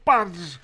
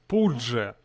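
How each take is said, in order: First: The name is said with an 'a' vowel. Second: The name is said with a 'u' vowel. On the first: The speaker calls it wrong. "почему неправильно говорить «я падж»?" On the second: The speaker calls it right. "что он пудже, пудже, а не падж"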